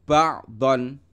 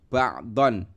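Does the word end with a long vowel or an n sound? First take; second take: n sound; n sound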